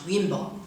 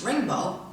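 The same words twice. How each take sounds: First: The word begins with a y sound. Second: The word begins with an r sound. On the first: The speaker calls it wrong. "not rainbow" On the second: The speaker calls it right. "It is rainbow"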